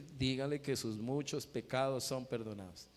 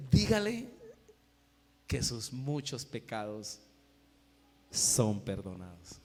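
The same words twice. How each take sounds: First: Lightly acted repeated instruction in one run; voice of the Lord. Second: Solemn, slow pronouncement dropping low; voice of the Lord. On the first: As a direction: restate it evenly without pauses. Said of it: "el Señor le dijo". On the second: Acted. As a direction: command first, then let each phrase sink with long pauses. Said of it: "el Señor le dice".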